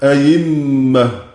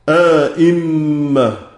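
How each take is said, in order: First: The second hamza is replaced by a y sound. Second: A long alif separates the two full hamzas. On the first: "إبدال هذه الهمزة" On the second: "له الإدخال وعدم، مع التحقيق طبعا"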